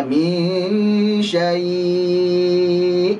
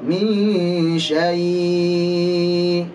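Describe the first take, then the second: First: Min syai' very slow with a firm glottal stop at the end; clear final hamzah. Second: Min syai' dragged very slowly, hamzah lost at the end; fading hamzah. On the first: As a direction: model syai' ending on a crisp hamzah. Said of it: "Hamzahnya jelaskan". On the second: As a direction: demonstrate syai' with the hamzah floating away. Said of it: "Jangan sampai membaca bisu". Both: Shown as a demonstration.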